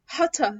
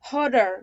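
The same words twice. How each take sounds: First: British "hotter" as "ho-tuh"; British accent. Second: Louder "hotter" as "hodder", strong final R; American hotter. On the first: Teacher showing how British say it, British accent. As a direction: say hotter British, clear T, no final R. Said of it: "البريتش بينطقوه ازاي؟". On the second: Teacher drilling American examples, flapped T. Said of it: "ده كده امريكان". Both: Shown as a demonstration.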